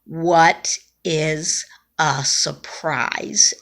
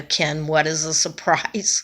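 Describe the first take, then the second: First: Slow, labored between breaths. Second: Said in the usual way. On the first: Retold or imitated. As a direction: squeeze it out, struggling for air. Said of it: "in between breaths". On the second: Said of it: "And I said".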